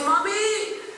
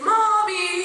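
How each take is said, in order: First: It sounds like a whiny complaint. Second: It sounds like an urgent call for help.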